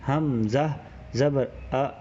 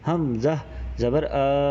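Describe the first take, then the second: First: The final vowel is kept short. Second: The final vowel is drawn out long. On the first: The speaker calls it right. "इसको इतना ही रखना है" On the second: The speaker calls it wrong. "पहले खींचने की बात कर लेते हैं"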